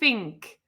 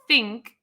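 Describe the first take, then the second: First: The word begins with an f sound. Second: The word begins with a th sound. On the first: "they said think, like an F" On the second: "didn't say think"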